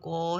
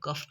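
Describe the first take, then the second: First: The word ends on an open vowel. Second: The word ends with an f sound. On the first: The speaker calls it wrong. "हम इसको कॉ नहीं पढ़ेंगे" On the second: The speaker calls it right. "हम इसको कफ पढ़ेंगे"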